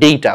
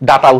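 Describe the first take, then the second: First: The first vowel sounds like 'day'. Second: The first vowel sounds like 'dah'. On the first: "উচ্চারণটা ডেটা" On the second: "বা তুমি ডাটা উচ্চারণ করলে আপাতত সমস্যা নাই"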